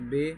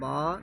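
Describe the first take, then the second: First: The letter name ends in an 'e' vowel. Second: The letter name ends in an 'a' vowel. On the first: The speaker calls it wrong. "ये उर्दू तरीका है, मजहूल तरीका है" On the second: The speaker calls it right. "ये अरबी तरीका है"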